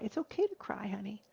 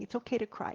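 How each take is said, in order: First: Tender reassurance to son. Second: Said in the usual way. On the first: Retold or imitated. Mother reassuring her ten-year-old son, tender and soft. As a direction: comfort your crying boy, stress on okay. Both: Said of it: "remind my son that this is a good thing".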